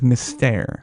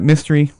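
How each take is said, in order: First: It is said with a French pronunciation. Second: It is said like the English word mystery. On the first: This is the name as the show uses it. The speaker calls it right. "Cirque du Soleil is primarily French, in pronunciation" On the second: Customers read it as an English word. The speaker calls it wrong. "but we got Mystery"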